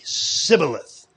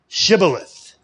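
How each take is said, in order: First: It begins with a plain 's' sound, Ephraimite dialect. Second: It begins with an 'sh' sound.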